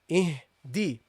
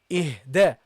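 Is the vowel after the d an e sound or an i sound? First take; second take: i sound; e sound. First: The vowel after the d sounds like i. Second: The vowel after the d sounds like e. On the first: The speaker calls it right. "Pronounce the kasra properly" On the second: The speaker calls it wrong. "don't say ihdina ih ihde ihde"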